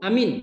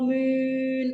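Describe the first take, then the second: First: Both vowels are short. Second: Both vowels are long. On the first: "A-nya pendek, mimnya pendek" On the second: "A-nya panjang, minnya panjang"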